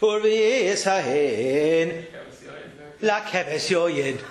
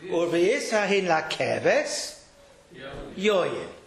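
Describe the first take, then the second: First: La keves yoyin runs together without a pause. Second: There is a pause before yoyin.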